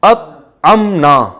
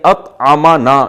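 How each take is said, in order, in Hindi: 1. m ध्वनि के बाद कोई स्वर नहीं आता। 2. m ध्वनि के बाद एक स्वर आता है। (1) "जबर के बजाय जज्म कर देना" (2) "मीम पे पे जबर"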